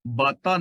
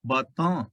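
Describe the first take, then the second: First: ਬਾਤਾਂ read with a plain, unnasalised final vowel; wrong reading. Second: ਬਾਤਾਂ said with a falling tune and the bindi nasal ending; correct reading. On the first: Teacher shows students the wrong way to read ਬਾਤਾਂ. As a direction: say ਬਾਤਾਂ the way he says not to read it. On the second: Teacher gives students the correct reading of ਬਾਤਾਂ. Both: Shown as a demonstration. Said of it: "ਬਾਤਾਂ ਨਹੀਂ ਪੜਨਾ".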